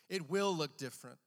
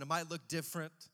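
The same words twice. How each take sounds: First: "will" punched louder; stress on WILL. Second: Said in the usual way. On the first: Real, not acted. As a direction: hit "will" hard with firm certainty. Corrects might to will, emphatically.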